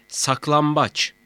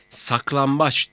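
First: "saklambaç" with m before the b; assimilated M sound. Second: "Saklambaç" with n in place of m; wrong N sound. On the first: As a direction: say "saklambaç" with lips closed on m. ("saklambaç", m sesiyle) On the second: ("Saklambaç", m yerine n ile) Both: Shown as a demonstration. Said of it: "Saklambaç değil, saklambaç".

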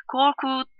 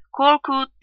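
First: Higher-pitched storybook call. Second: Higher, louder echo of a call; mimicking call. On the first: Filiz calling for Korkut from outside the room, narrated call. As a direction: call a child's name, held back. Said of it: "diye bağırdı". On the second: Neighbour girl in the street copying Filiz, mimicking call. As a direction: parrot the caller's cry. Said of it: "diye yansıladı". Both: A narrator's reading.

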